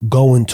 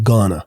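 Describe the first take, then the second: First: Both words are pronounced fully. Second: The words are reduced into one word.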